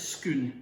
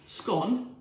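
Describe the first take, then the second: First: The vowel is an 'oo' sound, like scoon. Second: The vowel is not an 'oo' sound. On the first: This is how the local people say it. "to the people of Perth who can't manage ordinary speech, it's scoon" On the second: This is how most people say it. "scone to you and me"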